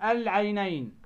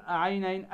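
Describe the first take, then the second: First: Corrected "العينين" with the l fully sounded; right version of "العينين", article's l audible; clear lam. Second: Wrong "عينين" with no l sound after the opening vowel; counter-example "عينين", article's l missing; dropped lam. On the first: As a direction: say "العينين", a distinct lam before ع. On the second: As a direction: say "عينين" as the mistake, lam swallowed. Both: Shown as a demonstration. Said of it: "ما تقول عينين".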